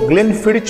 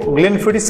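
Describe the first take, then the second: First: The word ends with a 'ch' sound. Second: The word ends with an 's' sound. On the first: "लोग इसको ग्लेनफिडिच बोलते हैं" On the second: "कुछ लोग इसको ग्लेनफिडिस बोलते हैं"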